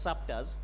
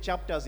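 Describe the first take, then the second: First: The word begins with an s sound. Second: The word begins with a ch sound. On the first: "Where there's ch, we put s" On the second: "if I'm saying chapters"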